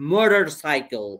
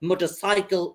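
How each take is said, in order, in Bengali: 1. এটা আমেরিকান অ্যাকসেন্টে বলা হয়েছে। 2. এটা ব্রিটিশ অ্যাকসেন্টে বলা হয়েছে। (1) "এটা যদি আমেরিকানরা পড়ে তো এইভাবে বলবে" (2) "ব্রিটিশ অ্যাকসেন্টে যদি পড়ি"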